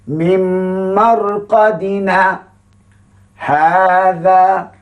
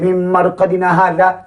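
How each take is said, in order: First: There is a brief pause after marqadina. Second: It is read straight through without a pause.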